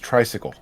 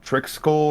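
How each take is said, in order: First: The name sounds like 'tricycle'. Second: The name sounds like 'trixcle'. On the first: This is how the audiobook narrator said the name. "The pronunciation in the audiobook is tricycle" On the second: This is how the name was imagined from reading. "I thought it was tri Trixcle or something like that"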